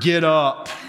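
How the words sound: It is said in a stern, harsh tone. "Some of you was very stern"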